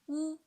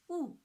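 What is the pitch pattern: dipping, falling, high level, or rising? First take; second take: high level; falling. First: The pitch stays high and level. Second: The pitch falls sharply from high to low. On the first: "The first tone" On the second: "the fourth tone"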